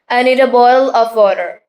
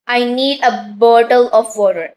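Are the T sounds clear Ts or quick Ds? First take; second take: quick D; clear T. First: The T sounds are quick D sounds. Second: The T sounds are clear, hard Ts. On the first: The speaker calls it right. "Like T converts into D" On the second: The speaker calls it wrong. "Don't say this"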